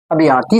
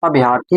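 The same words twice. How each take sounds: First: अभियार्थी with a long aa in yaar; incorrect pronunciation. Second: अभ्यार्थी as a-bhyar-thi, short vowel before r; correct pronunciation. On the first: Teacher showing students the form to avoid, incorrect pronunciation. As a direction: say अभियार्थी as a-bhi-yaar-thi. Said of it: "अभियार्थी शब्द नहीं होता है". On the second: Teacher giving students the proper word, correct pronunciation. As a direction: say अभ्यार्थी without stretching the aa. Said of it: "अभ्यार्थी होता है". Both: Shown as a demonstration.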